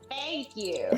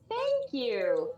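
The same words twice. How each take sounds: First: The voice sounds strongly nasal, from the back. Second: The voice sounds fairly clear, with little nasality. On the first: "Vivi Varendell has a lot more nasal, more to the back nasal" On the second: "where Polites is like"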